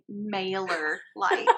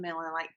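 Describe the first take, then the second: First: The first word is said carefully, sounding like 'mailer'. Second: The first word is said quickly, sounding like 'miller'. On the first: The speaker calls it right. "mailer as in mail" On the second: The speaker calls it wrong. "it sounds like Miller Lite"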